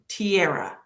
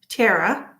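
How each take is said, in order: First: The name sounds like the word tiara. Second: The name sounds like Tara, two syllables. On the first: "number two, tiara? Like I'm wearing a tiara" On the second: "number one, Tara"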